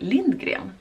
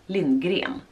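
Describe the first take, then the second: First: The stress is on the first syllable. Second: The stress is on the second syllable. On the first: "så har jag märkt att folk säger Lindgren" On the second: "Alltså, med betoning på gren"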